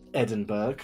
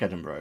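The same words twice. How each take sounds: First: It is said with a mock American pronunciation. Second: It is said with the usual local pronunciation.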